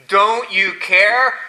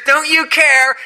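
First: Slow, drawn-out mimicry of their complaint; mocking echo. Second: High, loud accusing cry; panicked disciples. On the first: Jesus echoing the disciples' question back: slow mocking. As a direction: drag it out as a mock. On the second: Acted. Disciples to Jesus in the storm: high panicked accusation. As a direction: shout the accusation in alarm.

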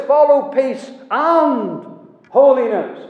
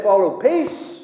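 First: "Follow peace and holiness" slow, loud, leaning on "holiness"; stress on holiness. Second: Said in the usual way. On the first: Shown as a demonstration. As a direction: drive home "holiness" as the missing half, slowly. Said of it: "He says". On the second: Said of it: "Paul doesn't just say".

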